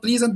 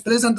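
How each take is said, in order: First: "pleasant" as plee-zant; wrong long vowel. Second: "pleasant" as PLEZ-unt; correct short vowel. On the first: Teacher rejecting the non-native way, "pleasant" as plee-zant. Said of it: "and not pleasant". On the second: Teacher giving native speakers' way, "pleasant" as PLEZ-unt. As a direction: say "pleasant" with short e, stressed first. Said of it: "the adjective is pleasant". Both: Shown as a demonstration.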